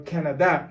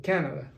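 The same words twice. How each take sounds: First: First Canada stressed on the final "da", ca-na-DÁ; stress on last syllable. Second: Canada stressed on "Ca", CA-na-da; stress on first syllable. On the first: Teacher gives the Spanish way, Canada stressed on the final "da". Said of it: "follow the stress mark". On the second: Teacher contrasts the other way, Canada stressed on "Ca". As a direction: put the weight at the start of Canada. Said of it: "instead of Canada". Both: Shown as a demonstration.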